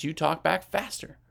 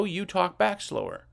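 First: Quick pace on "you talk back faster"; "you talk back faster" sped up. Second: Slow down on "you talk back slower"; "you talk back slower" drawn out, unhurried. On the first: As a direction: say "faster" briskly to show a fast talker. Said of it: "talking to you fast". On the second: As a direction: stretch out "slower" to show a slow talker. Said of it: "talking to you slow". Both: Shown as a demonstration.

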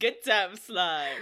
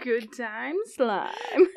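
First: Slow savoring. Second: Drawn out slowly through laughter; laughing. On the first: Host repeats the phrase back, slow and dry. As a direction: let each word land slowly. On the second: Co-host relishes the silly phrase, laughing. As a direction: savor the phrase while cracking up. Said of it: "such a good word". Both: Real, not acted.

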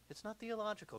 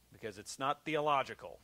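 First: A hint of a stiff, high-pitched reader; dull reader impression. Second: Said in the usual way. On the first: Preacher lightly mimicking the reader of a Spurgeon sermon. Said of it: "That's how that guy talked". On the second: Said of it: "he said".

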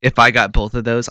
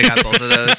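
First: Said in the usual way. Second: Higher, strained attempt at an Australian accent; overdone Australian voice, higher; put-on Australian. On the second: Shown as a demonstration. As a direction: force the Australian accent back in, pitched up. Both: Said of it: "I can't even talk Australian about this".

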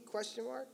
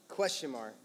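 First: "Question mark" softer, higher, with rising tune; questioning lilt. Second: Said in the usual way. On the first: Shown as a demonstration. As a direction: make "Question mark" itself sound like a question. Punctuation voiced as a question.

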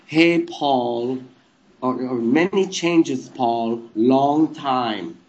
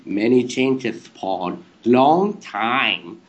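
First: Put-on slow, lightly German-accented statue voice; a hint of an odd German accent; weird German accent. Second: Put-on very slow, lisped German-accented gibberish voice; weird German accent. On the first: Statue greeting Paul to crack him up, odd German accent. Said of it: "I was speaking in a German accent". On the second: Statue baffling Paul on air, drawn-out weird German accent. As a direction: drag out each word in a silly German accent. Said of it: "like, in this weird voice".

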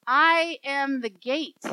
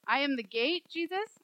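First: Slow, loud, weighty scripture reading; solemn declaration. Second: Puzzled questioning. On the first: A narrator's reading. Preacher reads Jesus' words to congregation, firm proclamation. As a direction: proclaim it with full conviction. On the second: Acted. Listener questions Jesus about the image, mildly baffled. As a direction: query the line as if baffled.

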